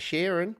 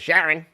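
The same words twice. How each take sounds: First: It is said in a non-Australian accent. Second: It is said in an Australian accent.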